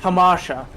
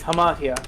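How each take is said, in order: First: The middle consonant is a 'sh' sound. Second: The middle consonant is a 'th' sound. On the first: The speaker calls it wrong. "if you were American and you did not know how to spell Greek, you would call it" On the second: The speaker calls it right. "but it's"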